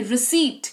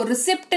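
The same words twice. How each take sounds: First: रिसीट with silent p and a long ee; correct pronunciation. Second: रिसिप्ट said with the p sounded; wrong pronunciation. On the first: Teacher gives students the right form, रिसीट with silent p. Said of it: "रिसीट पढ़ते हैं इसको". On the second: Teacher mocks the common mistake, रिसिप्ट with p. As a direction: demo the wrong way, रिसिप्ट with a clear p. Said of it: "आहा, गलत". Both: Shown as a demonstration.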